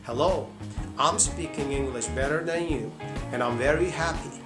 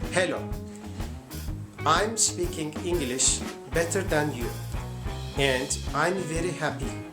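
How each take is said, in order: First: It is spoken with an American accent. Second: It is spoken with a Turkish accent. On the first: "American American accent" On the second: "So this is Turkish accent"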